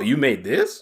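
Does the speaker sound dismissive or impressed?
dismissive. It sounds flat and unimpressed. The game does not seem very good. "there's two inflections"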